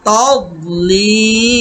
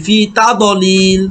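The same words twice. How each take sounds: First: তাদলিল said slowly with no bounce on দ; correct demo. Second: ফি তাদলিল with a bounced দ; wrong qalqala demo. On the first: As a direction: keep দ in তাদলিল plain and stretch লি. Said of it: "দত কলকলা হরফ না". (কলকলা ছাড়া তাদলিল) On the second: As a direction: mimic the mistaken echo on দ in তাদলিল. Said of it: "আবার আমরা অনেকেই এইভাবে পড়ি". (ভুলভাবে কলকলা দিয়ে তাদলিল) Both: Shown as a demonstration.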